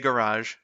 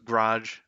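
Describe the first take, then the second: First: The word is said carefully, with every sound enunciated. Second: The word is said quickly, with sounds mushed together. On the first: This is the pronunciation adopted after practicing. "how to like enunciate better" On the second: This is how people in the local area say it. "we kind of like mush some words together"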